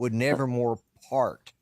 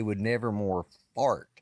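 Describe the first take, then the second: First: "part" begun with a clear P. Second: "fart" begun with F instead of P. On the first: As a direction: say "part" slowly, P at the front. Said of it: "I replaced the P in part". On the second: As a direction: land slowly on "fart", F at the front. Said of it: "with an F in my hearing". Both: Shown as a demonstration.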